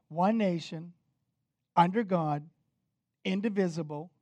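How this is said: There is a pause after 'nation'.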